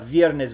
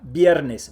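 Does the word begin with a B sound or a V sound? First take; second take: V sound; B sound. First: The word begins with a V sound. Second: The word begins with a strong B sound. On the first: The speaker calls it wrong. "That's wrong. There is no V sound in Spanish" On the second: The speaker calls it right. "you pronounce it strong like a B"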